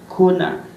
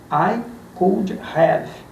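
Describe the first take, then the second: First: The words blend into one reduced form. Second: Each word is said fully and separately. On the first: "você vai escutar o americano falando" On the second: "Se você ver palavra como"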